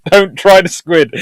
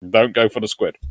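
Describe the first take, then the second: First: High, loud and slow, laughing; laughing, insistent don't try the squid; emphatic warning. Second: Said in the usual way. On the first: Real, not acted. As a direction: hammer it home. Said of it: "repeated plainly next". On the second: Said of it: "same advice restated".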